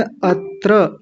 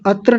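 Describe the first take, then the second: First: अत्र split as at-tra, held on the t; careful pronunciation. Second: अत्र run together quickly, without the held t; mispronunciation demo. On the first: Teacher models the first word, careful अत्र as at-tra. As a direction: say अत्र slowly, both syllables full. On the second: Teacher shows what not to say, hurried अत्र. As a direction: rush through अत्र as one short word. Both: Shown as a demonstration. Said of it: "अत्र नहीं कहना".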